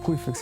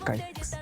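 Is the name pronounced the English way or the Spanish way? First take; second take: Spanish; English. First: The name starts with a Spanish 'cuy' sound. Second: The name starts with an English 'kai' sound. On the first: This is the original nickname from family. "ya la pronunciación no fue Cuyfex" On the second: This is how an English-language program read it. "este programa estaba en inglés. Entonces eh, ya la pronunciación no fue Cuyfex, sino fue Kaifex"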